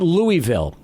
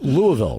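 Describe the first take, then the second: First: The city name is said the outsider way. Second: The city name is said the local way. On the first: The speaker calls it wrong. "I know it's not Louisville" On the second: The speaker calls it right. "It's Louisville, right? Is that the correct pronunciation?"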